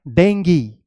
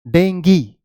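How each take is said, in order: The two takes are said the same way.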